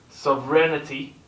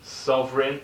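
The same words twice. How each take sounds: First: Sovereignty said slowly as SOV-ren-tee, the g silent; careful pronunciation. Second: Sovereign said as SOV-rin, g silent, rising; teacher models Sovereign, rising and clear; model pronunciation. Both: Shown as a demonstration. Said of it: "is a tricky one to, um, to pronounce".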